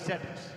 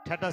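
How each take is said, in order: First: The word begins with an 'st' cluster. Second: The word begins with an aspirated 't' sound. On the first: The speaker calls it right. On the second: The speaker calls it wrong. "ঠাটাস না"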